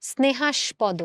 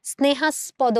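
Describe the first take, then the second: First: স্নেহাস্পদ with sh before p, "snehash-podo"; correct sh sound. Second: স্নেহাস্পদ slowly, with s before p, "snehas-podo"; wrong s sound. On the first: Teacher asking students to listen, correct sh sound. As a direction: turn the middle s of স্নেহাস্পদ into sh. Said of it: "আমরা বলি কি?". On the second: Teacher asking students to listen, wrong s sound. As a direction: keep a dental s inside স্নেহাস্পদ. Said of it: "বলি না". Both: Shown as a demonstration.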